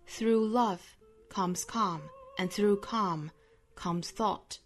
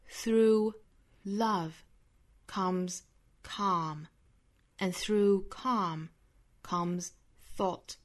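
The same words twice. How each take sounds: First: The sentence is read at a normal speed. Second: The sentence is read very slowly.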